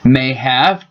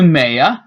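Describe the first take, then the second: First: Both words are said fully and separately. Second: The words blend into one reduced word.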